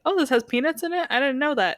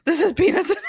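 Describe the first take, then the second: First: Light, higher-pitched "oh, really?"; casual mild surprise. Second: High, loud, laughing alarm; mock panic. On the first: Acted. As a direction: breezily act out not having known. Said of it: "'Cause then you get to be like". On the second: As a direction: blurt it out in hammed-up horror. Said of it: "Instead of".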